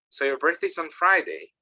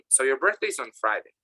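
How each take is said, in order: First: The pitch rises at the end. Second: The pitch falls at the end. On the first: The speaker is checking the fact. "if I'm checking, It goes up" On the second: The speaker is sure of the fact. "The intonation goes down"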